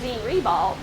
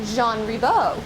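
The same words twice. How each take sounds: First: The name is said with an English pronunciation. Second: The name is said with a French pronunciation. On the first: This is the form used locally on signs. "when we see it on signs" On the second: This is the name's original pronunciation. "the actual French pronunciation"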